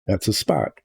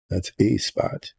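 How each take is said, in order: First: A said as "uh" before spot; A as "uh", not "ay"; article as "uh". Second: A said as "ay" before spot; A as "ay", not "uh"; letter-name A. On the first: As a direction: say A with a short uh vowel. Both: Shown as a demonstration. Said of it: "decide to pronounce differently".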